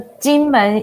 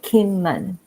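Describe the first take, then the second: First: The name begins with a soft J sound. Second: The name begins with a hard K sound. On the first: This is the Mandarin name. "So Jinmen is in Mandarin" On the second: This is the English name. "if you translate to English, we will call it Kinmen"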